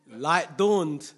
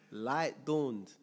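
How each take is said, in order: First: Proclaimed. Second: Said in the usual way. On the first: Acted. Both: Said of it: "repeats light dawned".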